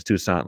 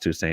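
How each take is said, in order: First: "Toussaint" ending in an open AH, too-SAHN; alternative French-style pronunciation. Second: "Toussaint" ending like English "saint"; pronounced too-SAINT. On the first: Podcaster offering listeners the other reading, "Toussaint" said too-SAHN. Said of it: "If it's Toussaint, let me know". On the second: Podcaster guessing at a player's name, "Toussaint" said too-SAYNT. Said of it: "I think it's pronounced". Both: Shown as a demonstration.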